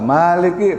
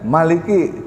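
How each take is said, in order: First: The first vowel is held long. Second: The first vowel is kept short. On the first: It means ruler or owner. "pakai panjang" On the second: It means king. "ada yang baca pendek"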